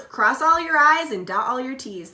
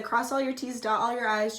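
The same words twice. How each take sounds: First: Slip of the tongue. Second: Said in the usual way. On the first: Shown as a demonstration. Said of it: "I almost just said". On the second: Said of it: "They just said".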